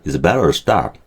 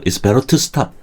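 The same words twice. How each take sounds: First: The word to is said weakly, barely heard. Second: The word to is said strongly and clearly.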